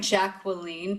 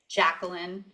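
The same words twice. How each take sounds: First: The name is said in a South African way. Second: The name is said in an American way. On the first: This is the name's original pronunciation. "It's actually Jacqueline" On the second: This is how people commonly say it. "but the American... people say Jacqueline"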